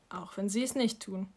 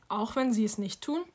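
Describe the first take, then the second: First: "tun" falling as a settled statement; quiet, final statement with stress on "nicht"; calm confirmation. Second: "tun" lifted into a rising question; doubtful question ending upward on "tun"; probing question. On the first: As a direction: answer softly, dropping the end on "tun". Mother confirms the same words. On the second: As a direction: ask it back, voice climbing on "tun". Child questions mother, echoing her. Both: A narrator's reading.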